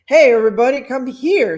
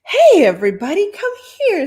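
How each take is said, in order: First: Excited call again. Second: Loud, high call to the room; excited call. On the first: Host calling the party guests over, loud, less pitched. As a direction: shout it over, less high. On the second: Host calling the party guests over, loud and excited. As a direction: call everyone over, thrilled. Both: Acted. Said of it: "said the man excitedly".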